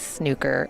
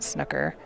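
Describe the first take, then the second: First: The word has a British pronunciation. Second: The word has an American pronunciation. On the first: The speaker calls it right. "it is snooker ... because it is British" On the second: The speaker calls it wrong. "and not snooker"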